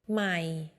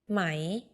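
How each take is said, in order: First: The syllable is said on a low tone. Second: The syllable is said on a rising tone. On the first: It means new. "low ใหม่ new" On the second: It means silk. "rising ไหม silk"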